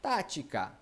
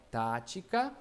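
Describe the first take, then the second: First: Said in the usual way. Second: TÁTICA slower and lower, each syllable held; drawn-out syllables. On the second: Shown as a demonstration. Teacher counting syllables, tática drawn out. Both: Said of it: "um, dois, três".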